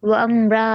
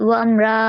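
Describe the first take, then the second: No difference in how they are said.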